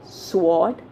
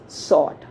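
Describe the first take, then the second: First: The W sound is pronounced. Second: The W sound is left out. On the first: The speaker calls it wrong. "is it sword? No" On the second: The speaker calls it right. "W is silent here"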